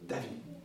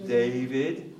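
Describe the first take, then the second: First: The name is pronounced the French way. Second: The name is pronounced the English way. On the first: "Mais en français" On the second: "En anglais"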